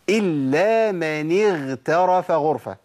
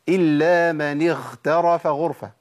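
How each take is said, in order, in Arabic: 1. الحرف الحلقي مجهور، مثل gh. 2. الحرف الحلقي مهموس، مثل kh. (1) "انا قلتها صح كده" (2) "خاء ولا غين؟ خاء"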